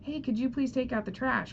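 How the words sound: The request sounds doubtful and questioning. The speaker wonders whether the request was ignored. "you can hear the doubt in my voice"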